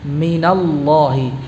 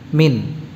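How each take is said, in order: First: The n takes a vowel linking to the next word. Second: The word ends in a bare n. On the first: The word is joined to the next word. "dibaca mina apabila disambung dengan kata setelahnya" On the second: The word is read on its own. "Kalau kita baca terpisah min atau mina? Min. Sukun"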